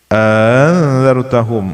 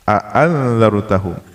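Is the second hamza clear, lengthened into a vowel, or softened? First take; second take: softened; clear. First: The second glottal stop is softened and eased. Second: Both glottal stops are pronounced clearly. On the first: "dan dibaca tashil" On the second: "dengan dibaca jelas tahqiq dua hamzahnya"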